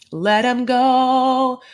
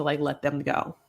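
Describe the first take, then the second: First: Higher, louder and very slow; slow, lofty mock farewell; dramatic farewell. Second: Said in the usual way. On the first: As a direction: draw out each word like a solemn goodbye.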